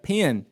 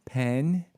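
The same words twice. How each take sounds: First: Put-on whole room's "Pen" as "pee-un", Southern accent. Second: Said in the usual way. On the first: Teller imitates his classmates saying Pen, Southern accent. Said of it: "everyone in the room would be like". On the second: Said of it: "and he'd say".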